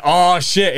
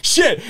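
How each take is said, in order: First: Higher, falling "oh, shit"; retold swearing slip. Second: High-pitched parroted curse; imitated toddler. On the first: Him swearing in front of his friend's little daughter, retold exasperation. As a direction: let a mock curse slip out. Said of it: "how many times I'm like". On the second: Friend's two-year-old daughter repeating his curse, imitated toddler echo. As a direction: chirp it back like a little kid copying. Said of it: "she literally would go".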